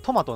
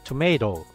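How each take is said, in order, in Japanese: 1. 日本語風の発音で、to-ma-to と言っています。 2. 英語風の発音で、to-may-to と言っています。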